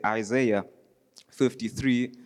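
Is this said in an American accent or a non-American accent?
American. It is said in an American accent.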